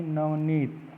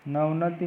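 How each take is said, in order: First: नवनीत with a long "neet"; nav-neet, ending on t, for नवनीत; correct form. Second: नवनति ending "na-ti"; nav-na-ti for नवनति; wrong form. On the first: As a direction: stretch the ee in नवनीत. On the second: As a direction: finish नवनति on a short i. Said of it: "नहीं". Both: Shown as a demonstration.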